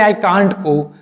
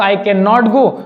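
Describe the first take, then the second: First: Can not is shortened to one syllable, can't. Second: Can not is said as two full words. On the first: "कैन नॉट का जो contraction बनेगा वो होगा कांट" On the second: "आप ऐसा बोल सकते हैं"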